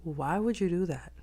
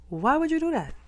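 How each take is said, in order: First: Said in the usual way. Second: High, louder disbelieving question; exasperated high. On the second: Shown as a demonstration. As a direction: ask it again, incredulous.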